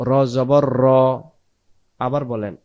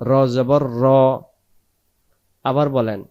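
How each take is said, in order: The two takes are said the same way.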